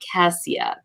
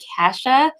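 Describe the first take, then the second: First: The middle consonant is an 's' sound. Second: The middle consonant is a 'sh' sound. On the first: The speaker calls it right. "not Cassia" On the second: The speaker calls it wrong. "I have been saying Kasha"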